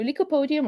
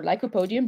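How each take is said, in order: First: "lycopodium" opening with LEE-ko; first syllable of "lycopodium" rhymes with "see"; alternate accent pronunciation. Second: "lycopodium" opening with LIE-ko; first syllable of "lycopodium" rhymes with "sky"; alternate accent pronunciation. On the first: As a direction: say "lycopodium" as lee-ko-POH-dee-um. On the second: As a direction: say "lycopodium" as lie-ko-POH-dee-um. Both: Shown as a demonstration. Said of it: "which accent you want to use".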